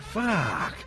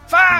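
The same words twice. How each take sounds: First: It sounds admiring, like seeing someone attractive. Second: It sounds pained, like hitting your thumb.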